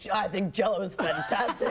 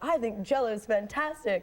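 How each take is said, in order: First: The voice is low and hoarse. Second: The voice is light and clear. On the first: This is how the speaker really talked as a child. "did you have a sore throat?" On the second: This is how a cute little girl is expected to sound. "instead of saying like"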